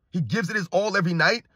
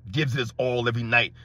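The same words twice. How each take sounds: First: Incredulous echo. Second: Low, dull mock quote of the claim; mocking fan imitation. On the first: Retold or imitated. Host doubting a fan's claim about LeBron, incredulous echo. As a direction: echo the claim with a rising end. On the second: Host parroting a LeBron fan's claim, low mocking imitation.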